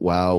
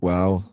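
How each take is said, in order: First: It is said slowly with a flat pitch. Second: It is said short and sharp. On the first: The speaker is judging or cannot believe what happened. "slow, flat wow" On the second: The speaker is purely surprised. "short, sharp wow"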